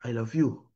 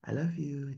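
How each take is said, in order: First: Loveless, sour-faced delivery; grumpy frown in the voice; sullen, scowling. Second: Soft, tender smiling voice; loving and gentle; happy, smiling. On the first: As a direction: say it with a scowl, no tenderness. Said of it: "kalau muka lagi merenggut". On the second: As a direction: say it softly through a smile. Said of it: "kalau muka lagi happy". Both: Shown as a demonstration.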